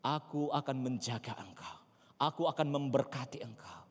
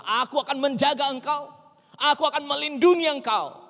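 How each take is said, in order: First: Quiet, measured reassurance; soft divine promise. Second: High, loud proclamation of God's words; booming divine promise. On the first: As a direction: repeat the promise gently and softly. Same promise repeated softly. (janji Tuhan diucapkan lembut) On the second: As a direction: declare it loudly as a solemn promise. Declaring God's promise at full force. (seruan janji Tuhan yang lantang) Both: Acted.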